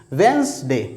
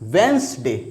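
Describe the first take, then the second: First: The d is silent: wenz-day, two syllables. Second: The d is silent: wenz-day, two syllables.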